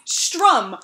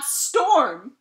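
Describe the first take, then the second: First: The vowel comes after the R, like strum. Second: The vowel comes before the R, like storm. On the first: The speaker calls it right. "It's strum, like a guitar" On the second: The speaker calls it wrong. "that is not how my name is pronounced"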